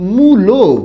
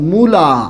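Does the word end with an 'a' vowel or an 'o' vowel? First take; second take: o; a. First: The word ends with an 'o' vowel. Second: The word ends with an 'a' vowel. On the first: "ঢাকায় আবার কি উচ্চারণ করা হয়?" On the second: "আমি একটা শব্দ লিখলাম মূলা"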